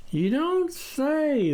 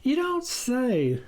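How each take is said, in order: First: Slow, higher "You don't say"; drawn out, doubtful; repeated musing. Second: Slow, higher "you don't say"; drawn out, unconvinced; musing. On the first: The farmer repeating his favourite phrase, slow. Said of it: "the farmer repeated". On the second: The farmer mulling it over, slow. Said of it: "the farmer mused". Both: A narrator's reading.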